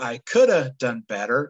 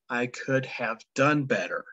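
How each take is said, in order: First: 'Could have' is reduced and run together. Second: 'Could have' is said in its full form. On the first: This is casual, informal speech. The speaker calls it wrong. "in casual speech, a person might say what sounds like" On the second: This is standard, formal English. The speaker calls it right. "in standard English, the correct sentence is written"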